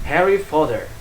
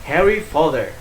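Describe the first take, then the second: No difference in how they are said.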